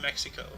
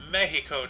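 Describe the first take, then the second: First: Mexico is said with an English pronunciation. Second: Mexico is said with a Spanish pronunciation. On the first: The speaker calls it wrong. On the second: The speaker calls it right. "You said it uh, in their native tongue"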